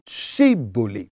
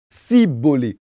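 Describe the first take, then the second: First: The word begins with an 'sh' sound. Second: The word begins with an 's' sound. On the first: The speaker is one of our own people. The speaker calls it right. "prononcer le mot Shibolé" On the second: The speaker belongs to the enemy group. The speaker calls it wrong. "incapables de le prononcer correctement, eux, ils disaient plutôt Sibolé"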